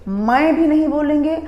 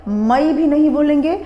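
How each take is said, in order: Both takes have the same delivery.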